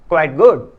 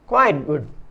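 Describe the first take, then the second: First: Good is stressed and quite is weak. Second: Quite is stressed and good is weak. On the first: It is almost good, very little less than good. "गुड पर stress, जोर या बल होने तथा वीक quite होने पर" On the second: It is much less than good. "Quite पर stress मतलब बल और वीक गुड होने पर"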